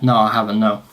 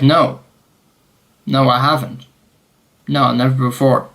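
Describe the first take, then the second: First: Said in the usual way. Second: Overdone denial. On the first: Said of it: "I was just like". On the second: Retold or imitated. Traveller asked by officer about arrests, overdone denial. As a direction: deny it a little too deliberately. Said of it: "I didn't say it like that".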